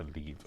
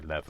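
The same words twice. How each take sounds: First: It is said the usual British way. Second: It is said the non-British, film-character way. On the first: This is how it is said in the UK. "we say lever in the U K" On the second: This is how the film characters say it. "why they say lever"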